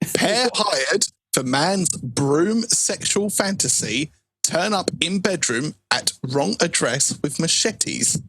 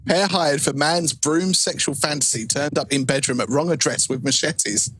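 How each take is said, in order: First: It is read at a slow pace. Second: It is read at a fast pace.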